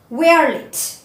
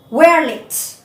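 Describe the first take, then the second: First: It is said with the contracted form. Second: The same.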